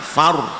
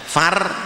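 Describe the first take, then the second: First: The syllable is said with rounded, pouted lips. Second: The syllable is said with spread, unrounded lips. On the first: The speaker calls it right. "agak moncong ... tapi far" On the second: The speaker calls it wrong. "tidak far"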